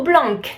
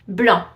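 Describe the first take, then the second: First: Blanc with a hard K at the end; wrongly sounded C. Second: Corrected blanc, no K at the end; silent final C. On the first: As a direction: mispronounce blanc, sounding the final C. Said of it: "No blanc". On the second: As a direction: say blanc the French way, C dropped. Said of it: "The C at the end is silent". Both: Shown as a demonstration.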